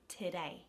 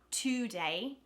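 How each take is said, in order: First: The first vowel is a reduced schwa. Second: The first vowel is a full O sound. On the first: The speaker calls it right. "it becomes a schwa" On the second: The speaker calls it wrong. "So you don't say today, even though that's how it reads"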